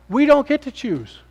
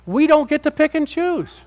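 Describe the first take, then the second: First: Slow, high, "don't" stressed again; emphatic repeat. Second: Slow, high, stress on don't; emphatic. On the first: Preacher repeating the point, slow and stressed. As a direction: drive "don't" home slowly. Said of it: "repeated emphatic point". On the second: Preacher to the congregation, slow and emphatic on "don't". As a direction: lean hard on "don't", drawn out. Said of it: "emphatic sermon point". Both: Real, not acted.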